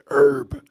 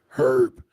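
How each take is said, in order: First: The word begins without an h sound. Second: The word begins with an h sound. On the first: This is the American pronunciation. "here in America, we pronounce it herb" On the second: This is the British pronunciation. "they pronounce it with the H"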